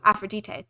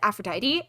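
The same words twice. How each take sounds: First: It is said the Greek way. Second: It is said the usual English way. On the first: The speaker calls it right. "That's how you actually pronounce it" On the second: The speaker calls it wrong. "a lot of people pronounce it Aphrodite"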